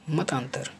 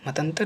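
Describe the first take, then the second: First: मतांतर with long middle vowel, "mataantar"; correct long A. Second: मतंतर with short middle vowel, "matantar"; wrong short A. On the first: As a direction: draw out AA after T in मतांतर. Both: Shown as a demonstration. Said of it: "मतंतर नहीं".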